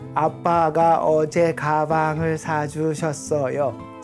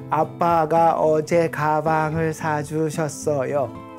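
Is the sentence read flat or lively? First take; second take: flat; flat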